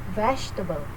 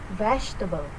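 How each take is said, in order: First: The middle syllable is reduced and short. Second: The same.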